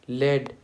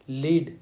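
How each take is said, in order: First: The vowel is a short 'e' sound. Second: The vowel is a long 'ee' sound. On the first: It names a heavy metal. "जिसे metal बोलते हैं, एक heavy metal" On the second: It means to guide or be in charge. "लीड करना हो गया, जैसे कि हम गाइड करेंगे"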